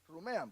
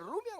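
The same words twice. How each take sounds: First: Rumean with the e sound, ru-me-an. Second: Rumian with the i sound, rum-ian. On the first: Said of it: "¿rumian o rumean?". (Rumean pronunciado ru-me-an, con e) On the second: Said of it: "¿cómo se dice?". (rumian pronunciado rum-ian, con i) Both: Shown as a demonstration.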